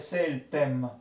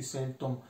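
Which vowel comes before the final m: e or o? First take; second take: e; o. First: The vowel before the final m is e. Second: The vowel before the final m is o. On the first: This is the older form recorded in the dictionary. "Dentro alle mura, il reggiano, quello che vediamo ancora sul vocabolario, è seltem" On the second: This is how almost everyone in the city says it now. "A Reggio adesso diciamo quasi tutti seltom"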